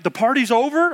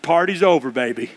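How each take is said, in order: First: "The party's over?" as a question, OVER rising high; questioning disbelief. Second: Put-on "Party's over, baby" falling low at the end; final verdict. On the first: Retold or imitated. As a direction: raise "over" into an incredulous question. Friends question his announcement. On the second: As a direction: drop "baby" low, closing the matter. His final answer to the friends.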